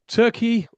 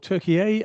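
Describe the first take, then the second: First: The name is said the traditional English way. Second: The name is said the newer local way.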